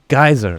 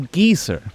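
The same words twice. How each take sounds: First: It is said in an ordinary, everyday way. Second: It is said in a fancier, British-sounding way.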